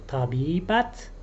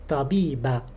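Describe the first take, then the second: First: The word ends with a clear t sound. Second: The word ends on a vowel, no t. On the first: "we can pronounce the t" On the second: "or we can just leave it out"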